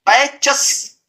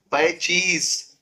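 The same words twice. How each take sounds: First: पैचेस slow, with short hissed chs ending; wrong plural. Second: पैचीज softer, with long ee and z; corrected plural. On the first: Teacher showing students the failed plural, wrong hissed ending. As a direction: hiss the s straight after च in पैचेस. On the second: Teacher giving students the right plural, cheez ending. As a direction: end पैचीज in a clear cheez. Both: Shown as a demonstration. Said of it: "पैचेस होगा नहीं".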